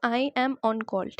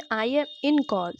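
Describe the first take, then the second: First: "I am on call" slow, "on" clear, falling at the end; correct version. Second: "I am in call" said slowly as the mistake; wrong version. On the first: Teacher giving the right phrase slowly. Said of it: "On call बोलना है". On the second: Teacher quoting a common mistake slowly. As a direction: show "in call" as what not to say. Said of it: "this is wrong". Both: Shown as a demonstration.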